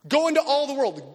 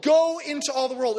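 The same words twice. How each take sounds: First: "into" held longer and leaned on, falling; stress on into. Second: "Go" hit first and strongest, falling; stress on go. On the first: Pastor urging the church outward, stress on "into". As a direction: lean into the word "into". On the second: Pastor sending the church out, stress on "Go". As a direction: punch the opening word "Go". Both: Shown as a demonstration. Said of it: "repeated command, shifted stress".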